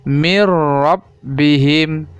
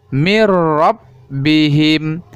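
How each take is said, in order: The two takes are said the same way.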